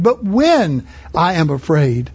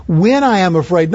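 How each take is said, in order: First: "when" stretched and stressed, said slowly. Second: Said in the usual way. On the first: Shown as a demonstration. Preacher stressing David's "when", not "if". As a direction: lean hard on "when" to contrast with "if". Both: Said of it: "not if I'm afraid".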